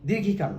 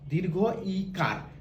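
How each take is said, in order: First: The two parts are run together into one word. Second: The two parts are kept apart, with a clear vowel. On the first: The speaker calls it wrong. "দীর্ঘিকার না" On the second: The speaker calls it right. "উচ্চারণটা হবে বাংলায় দীর্ঘ ইকার"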